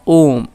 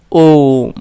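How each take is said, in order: First: Said in the usual way. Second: ओम with the ओ held very long, slow; teacher holding ओम long to show a pluta vowel; drawn-out pluta vowel. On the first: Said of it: "क्या है?". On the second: Shown as a demonstration. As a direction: stretch the vowel of ओम to three times its length. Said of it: "तिगुना समय लगता है".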